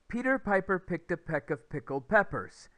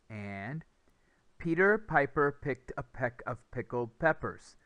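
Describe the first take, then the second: First: It is said at the fastest pace. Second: It is said at a faster pace.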